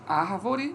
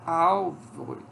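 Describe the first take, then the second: First: The word is said with an R before v. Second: The word is said with an L before v. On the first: "Em vez de"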